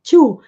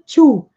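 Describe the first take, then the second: Both takes have the same delivery.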